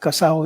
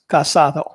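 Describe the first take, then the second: First: The middle d sound is dropped. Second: The middle d sound is pronounced. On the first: This is the local street form. The speaker calls it wrong. "It's not casao" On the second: This is the standard form. The speaker calls it right. "it's casado"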